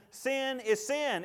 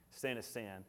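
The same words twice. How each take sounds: First: "sin is sin" slow, higher and louder; stress on sin. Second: "Sin is sin" low and soft; quiet statement. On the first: Preacher insisting on sin to the church, slow and high. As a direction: pound each "sin". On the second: Preacher quietly restating to the congregation, lower and softer. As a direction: say it softly, settled. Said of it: "same phrase quiet". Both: Acted.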